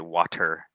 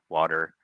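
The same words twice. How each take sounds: First: The middle consonant is a crisp T sound. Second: The middle consonant is a soft D sound. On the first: "We don't say water" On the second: "it'll get soft into that D sound"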